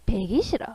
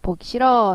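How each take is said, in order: First: The first vowel is a fronted 'ae' sound. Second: The first vowel is a rounded 'o' sound. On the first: "방언에서 이렇게 이제 발음을 한다" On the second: "보기 싫어 했을 때"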